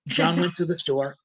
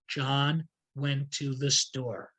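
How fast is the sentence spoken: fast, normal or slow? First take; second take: normal; slow. First: It is spoken at normal speed without emphasis. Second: It is spoken slowly with key words emphasized. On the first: "speeding it up to normal level now" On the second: "So slowly"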